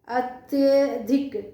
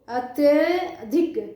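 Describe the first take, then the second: No difference in how they are said.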